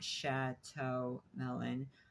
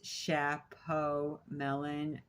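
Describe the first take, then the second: First: The first word is said with a t sound. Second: The first word is said with a p sound. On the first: The speaker calls it wrong. "not Chateau Melon" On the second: The speaker calls it right. "I guess it's Chapeau Melon"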